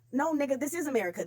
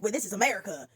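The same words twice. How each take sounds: First: "this is America" with "is" hit, pitched up; stress on is. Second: Mock smug quote. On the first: Real, not acted. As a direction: correct them by leaning on "is". Retort correcting the quote. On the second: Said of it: "and it's like".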